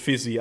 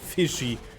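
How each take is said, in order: First: The middle consonant is a 'z' sound. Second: The middle consonant is a 'sh' sound. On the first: The speaker calls it wrong. "not Fizzy. I, I said it wrong" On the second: The speaker calls it right. "he's called Fishy on top lane"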